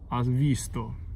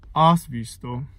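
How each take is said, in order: First: The stress falls on the syllable 'vis'. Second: The stress does not fall on 'vis'. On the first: The speaker calls it right. "there's a stress, has visto ... because of this stress on V" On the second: The speaker calls it wrong. "It's nothing like has visto"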